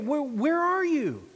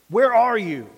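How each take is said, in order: First: It is said in an urgent, earnest tone. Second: It is said in a stern, severe tone. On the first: God is calling out with urgent concern. "Was it earnest?" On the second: God is calling out in judgment. "Was it stern?"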